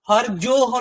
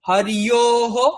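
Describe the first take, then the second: First: The middle consonant is sounded like 'j'. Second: The middle consonant is sounded like 'y'. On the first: The speaker calls it wrong. "হরজোহ নয়, হরজোহ বললে হবে না" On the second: The speaker calls it right. "দেখুন হরিয়োহ"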